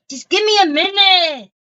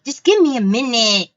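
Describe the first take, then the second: First: High, playful mock-whiny plea; mock pleading. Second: Said in the usual way. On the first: Host stalls viewers while finding something, in a high mock plea. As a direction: repeat it as a high-pitched, hammed-up plea.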